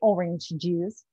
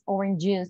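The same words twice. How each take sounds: First: Both similar sounds at the join are pronounced. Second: The two similar sounds merge into one. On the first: The speaker calls it wrong. "They can't say orange juice" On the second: The speaker calls it right. "We skip the first one usually"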